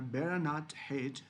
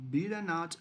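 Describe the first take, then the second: First: Beta as BEH-ruh, American way; American pronunciation. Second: Beta as BEE-tuh, British way; British pronunciation. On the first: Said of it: "the beta is just American pronunciations". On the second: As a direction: say beta with a long ee. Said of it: "this is also pronounced like beta and also beta". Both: Shown as a demonstration.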